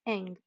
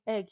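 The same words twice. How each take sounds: First: Nasal "eng" instead of "egg"; nasal twang. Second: Said in the usual way. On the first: Shown as a demonstration. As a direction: egg said through the nose as eng. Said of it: "a nasal twang in the voice". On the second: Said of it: "he won't be able to say egg".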